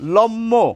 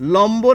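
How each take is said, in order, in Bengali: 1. ম দ্বিত্ব হয়, কিন্তু ব-এর ধ্বনি নেই। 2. ম-এর পরে ব-এর ধ্বনি আসে। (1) "আমাদের বলা উচিত ছিল লম্ম, কিন্তু তা কিন্তু বলি না" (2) "আমরা ম এবং ব দুটি বর্ণেরই উচ্চারণ করি।"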